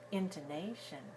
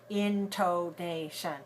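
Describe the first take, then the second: First: Some syllables are long, others are short. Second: All syllables are equally long and clearly said. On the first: The speaker calls it right. "We say intonation, da da da da" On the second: The speaker calls it wrong. "We don't say it that way"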